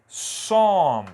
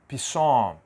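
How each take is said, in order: First: The word begins directly with an S sound. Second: The word begins with a sounded P. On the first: The speaker calls it right. "A pronúncia aqui é som. Eu começo direto na letra S" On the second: The speaker calls it wrong. "eu não vou dizer pisson, negativo"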